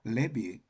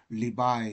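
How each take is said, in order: First: The word sounds like 'leh-vee', ending in 'ee'. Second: The word sounds like 'lee-vye', ending in 'eye'. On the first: "레비 어, 이렇게 발음 두 가지가 있습니다" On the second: "리바이 이렇게 발음하기도 하고"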